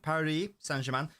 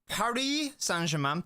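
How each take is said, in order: First: It is said in the speaker's normal English accent. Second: It is said in a put-on French accent.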